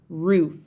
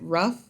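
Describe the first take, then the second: First: The vowel is a long oo sound. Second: The vowel is a short sound.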